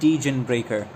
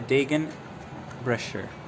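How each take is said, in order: First: The second word has a k sound in the middle. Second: The second word has an sh sound in the middle. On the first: The speaker calls it wrong. "It's not Degen Breaker" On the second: The speaker calls it right. "so so the ch is uh, pronounced sh"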